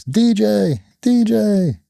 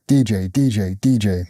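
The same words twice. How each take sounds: First: High, drawn-out imitation of a little kid; child calling out. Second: Said in the usual way. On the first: Young daughter calling her dad across the cage area, high mimicked call. And you just hear.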